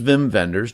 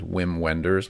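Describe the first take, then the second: First: The name is pronounced the German way. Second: The name is pronounced the English way. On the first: The speaker calls it right. "But this is" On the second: The speaker calls it wrong. "I thought his name was"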